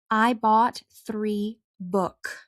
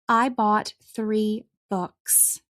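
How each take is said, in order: First: The final S sound is left off. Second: The final S sound is clearly pronounced. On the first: The speaker calls it wrong. "Those sentences are incorrect because you did not pronounce the S" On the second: The speaker calls it right. "Now listen to the sentences correct"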